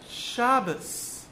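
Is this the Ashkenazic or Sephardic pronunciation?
Ashkenazic. It is said the Ashkenazic way, ending in s.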